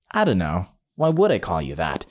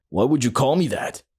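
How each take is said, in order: First: Lower, dry sarcastic comeback. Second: Understated offended question; mildly mad. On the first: Teller answering the offended guy, mildly sarcastic. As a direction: drop the pitch for mock puzzlement. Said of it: "And I sarcastically said". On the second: Offended guy confronting the teller, mild retold anger. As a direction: lightly imitate an annoyed man demanding why. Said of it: "The guy got mad". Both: Retold or imitated.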